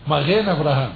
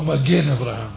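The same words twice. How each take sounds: First: The g sound is soft, like a throaty r. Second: The g sound is a hard, stopped g. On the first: The speaker calls it right. "צריך לומר מגן אברהם" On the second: The speaker calls it wrong. "לא מגן אברהם"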